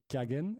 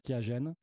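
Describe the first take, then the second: First: The name is pronounced the German way. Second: The name is pronounced the French way. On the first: "si vous le prononcez à l'allemande" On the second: "en France, on prononce Kiagen"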